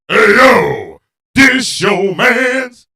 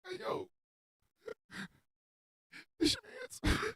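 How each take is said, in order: First: It is said in a boisterous way. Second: It is said in a sad way.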